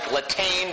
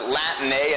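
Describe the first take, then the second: First: The name is read as plainly spelled, ending 'ain'. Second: The name ends with an 'ay' sound. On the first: The speaker calls it wrong. "It looks like Latane" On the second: The speaker calls it right. "but you pronounce it Latané"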